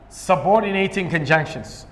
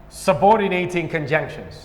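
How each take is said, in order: The two takes are said the same way.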